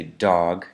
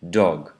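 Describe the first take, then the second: First: Dog with an American open AW vowel, dawg. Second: Dog with a British short rounded O, dog. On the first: Teacher demonstrating the American dog. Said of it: "an American would say dog". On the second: Teacher contrasting the British dog. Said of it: "a British person would say something like dog". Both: Shown as a demonstration.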